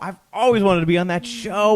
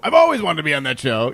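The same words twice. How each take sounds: First: It sounds engaged, with natural, lively inflection. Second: It sounds rushed, with flat, odd inflection. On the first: The speaker calls it right. "that's if you really engaged" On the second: The speaker calls it wrong. "You wouldn't really go"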